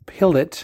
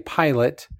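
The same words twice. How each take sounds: First: The word is pronounced the French way. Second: The word is pronounced the English way. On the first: "but it's pilot, I've learned" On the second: "how we would say pilot"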